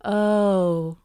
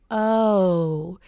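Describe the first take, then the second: First: "O," said as one pure monophthong O, no glide; Minnesota O. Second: "O" drawn out as a gliding diphthong O. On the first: Dialect coach demonstrating the pure Minnesota "O,". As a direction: hold "O," on a single pure vowel. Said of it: "we go right to the O". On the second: Dialect coach demonstrating the standard gliding "O". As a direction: slide the "O" from one vowel into another. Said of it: "diphthong O". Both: Shown as a demonstration.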